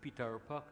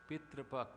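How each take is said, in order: First: The second syllable is said as 'tar'. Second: The second syllable is said as 'tra'. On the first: The speaker calls it wrong. "I said it like that because you know it's, it jars you when you hear that" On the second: The speaker calls it right. "How much nicer that sounds"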